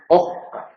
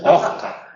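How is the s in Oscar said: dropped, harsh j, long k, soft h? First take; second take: long k; harsh j. First: The s disappears into a long k. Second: The s sounds like a harsh throaty j. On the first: "se duplica la consonante ... donde hay una K larga" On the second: "Se llega a confundir con la J"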